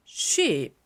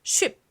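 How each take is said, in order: First: "sheep" with a drawn-out ee; long vowel. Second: "sheep" with a short, quick vowel like ship. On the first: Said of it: "이거는 장모음". ("sheep"의 모음을 길게 늘여 장모음으로) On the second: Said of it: "이건 단모음". ("sheep"의 모음을 짧게, 단모음으로) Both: Shown as a demonstration.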